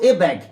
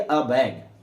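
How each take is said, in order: First: The article is a full 'ay' sound. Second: The article is a short weak 'uh' sound. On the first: The speaker calls it wrong. "ये नहीं बोला जाता है" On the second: The speaker calls it right. "अ बोला जाता है"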